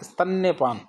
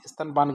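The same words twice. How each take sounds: First: स्तन्यपान with doubled 'nne', pitched higher; correct form. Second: स्तनपान with no 'ya' after 'n'; wrong form. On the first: Teacher supplying the right word, स्तन्यपान with a clear 'nya'. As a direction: say स्तन्यपान as istan-nye-paan. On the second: Teacher quoting the mistaken word, स्तनपान without 'ya'. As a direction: say स्तनपान as istan-paan. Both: Shown as a demonstration. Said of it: "की बजाय क्या होगा".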